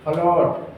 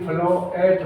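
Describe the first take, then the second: First: The vowel is one sound, without a separate a. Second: The a is sounded as a separate syllable. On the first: The speaker calls it right. "तो ए का नहीं होता" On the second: The speaker calls it wrong. "नहीं फ्लो एट होता"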